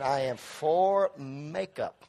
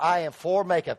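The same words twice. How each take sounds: First: I am for makeup drawn out slowly, each word weighted, for stressed; slow emphatic repeat. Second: Said in the usual way. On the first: Shown as a demonstration. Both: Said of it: "Come on, everybody say amen".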